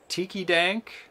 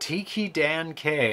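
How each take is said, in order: First: The ending is one syllable, 'Dank'. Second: The ending is two syllables, 'Dan' then 'K'. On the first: The speaker calls it wrong. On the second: The speaker calls it right.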